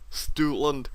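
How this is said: It is said in an exaggerated put-on accent. This is a joking nickname among friends. "me and my friends call it Stoutland ... sorry for that awful accent"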